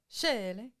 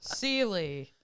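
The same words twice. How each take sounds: First: The name is said with a Norwegian-style pronunciation. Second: The name is said with a plain American pronunciation. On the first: This is the original way of saying the name. The speaker calls it right. "it's supposed to be like Seeley" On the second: This is how the family says the name. The speaker calls it wrong. "my family says Seeley"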